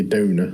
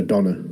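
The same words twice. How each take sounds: First: Donor said as DOH-nuh, long o; kidney donor pronunciation. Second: Doner said as DON-uh, short o like the kebab; doner kebab pronunciation. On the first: Correcting his notes to his mate, says donor with a long o. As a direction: say donor with a long o, not like doner. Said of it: "It's not a doner kebab, mate. It's a kidney donor". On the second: Mixing up the kidney word on his notes, says doner with a short o. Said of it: "It's not a doner kebab". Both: Shown as a demonstration.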